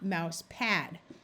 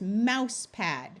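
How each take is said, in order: First: The stress falls on the word pad. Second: The stress falls on the word mouse. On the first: The speaker calls it wrong. "not mouse pad" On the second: The speaker calls it right. "accent the first word generally. ... Notice it's mouse pad"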